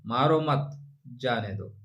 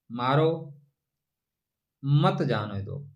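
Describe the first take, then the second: First: मारो मत said together, break, then जाने दो slowly; pause after मत. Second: मारो said alone, a long pause, then मत जाने दो slowly; pause after मारो. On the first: Astrologer showing the comma moved after मत, changing the meaning. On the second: Astrologer showing the comma goes after मारो, long pause. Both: Shown as a demonstration. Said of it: "एक कामा लगाना है मित्र".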